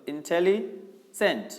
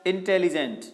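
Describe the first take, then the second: First: intelligent stretched out slowly, syllable by syllable. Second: Said in the usual way. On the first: Shown as a demonstration. Teacher demonstrating a long word to the class, slowly syllabified. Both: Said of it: "दूसरा".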